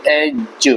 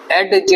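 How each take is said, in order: First: एज drawn out, no separate d; silent d. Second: एडज with a separate d before j; sounded silent d. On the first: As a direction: say एज slowly, gliding straight to j. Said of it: "इसको बोलेंगे एज". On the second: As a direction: pronounce the d in एडज. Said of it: "एडज नहीं बोलेंगे". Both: Shown as a demonstration.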